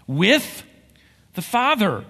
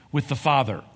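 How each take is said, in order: First: "Father" lifted higher and louder after a pause; "With... the Father" said slowly and weighted; stress on Father. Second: Said in the usual way. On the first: Shown as a demonstration.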